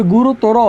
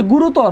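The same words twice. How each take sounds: First: "গুরুতর" ending in an open -to-ro; correct pronunciation. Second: "গুরুতর" ending in a closed -tor; written form. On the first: Teacher gives the spoken form, "গুরুতর" with final o sounded. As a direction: finish "গুরুতর" on a clear round o. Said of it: "হবে". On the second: Teacher cites the word as spelt, "গুরুতর" ending on r. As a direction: stop "গুরুতর" on the r, no final vowel. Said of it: "আছে". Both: Shown as a demonstration.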